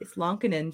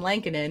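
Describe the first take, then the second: First: The first vowel sounds like the vowel in 'on'. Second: The first vowel sounds like the vowel in 'cat'. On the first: The speaker calls it right. "it's Lonkinen" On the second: The speaker calls it wrong. "everybody says Kevin Lankinen"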